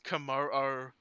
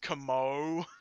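First: The name ends with a doubled o sound. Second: The name ends with a single o sound. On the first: The speaker calls it right. "I used to pronounce Kamo-o as Kamo" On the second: The speaker calls it wrong. "I used to pronounce Kamo-o as Kamo"

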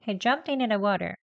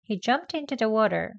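First: The t in into is dropped, like inna. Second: The word into is said short and quick. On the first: "이내 합니다" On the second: "짧게 합니다"

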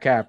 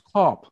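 First: The vowel sounds like the one in 'cap'. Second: The vowel sounds like the one in 'cop'. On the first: The speaker calls it wrong. "it's not Kapp" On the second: The speaker calls it right. "He told me it's Kopp"

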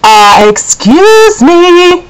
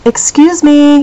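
First: It is said more loudly. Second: It is said softly and sweetly.

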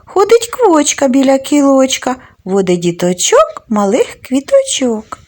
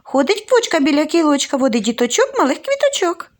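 First: It is said at a normal, unhurried pace. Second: It is said very quickly.

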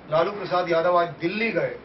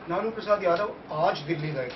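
First: The stress falls on the word Dilli. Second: The stress falls on the word aaj. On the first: He went to Delhi, not to another place. "Jhumri तलैया नहीं गए, परतवाड़ा नहीं गए" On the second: He went today, not on another day. "कल नहीं गए थे, कल नहीं जाएंगे"

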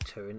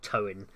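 First: The name is said with its Welsh pronunciation. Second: The name is said with an anglicized pronunciation. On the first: The speaker calls it right. "That's the proper pronunciation for it" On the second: The speaker calls it wrong. "Most English people probably pronounce it Towin"

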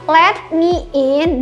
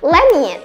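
First: Let me is said as two full words. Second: Let me is reduced to one word, lemme. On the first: "contohnya adalah let me in" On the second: "teman-teman itu bisa bacanya lemme in"

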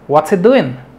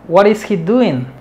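First: The first words are run together into one. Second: Each word is said fully and emphatically. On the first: "Se reducen estas cuatro palabras a una sola" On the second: "Lo puedes decir así, de manera enfática"

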